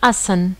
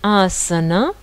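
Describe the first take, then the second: First: The final vowel is dropped. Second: The final vowel is pronounced. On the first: "on va dire asan" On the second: "Et le mot asana"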